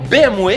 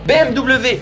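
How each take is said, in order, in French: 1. Le W se dit à la belge. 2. Le W se dit à la française standard. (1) "Et ils ont raison"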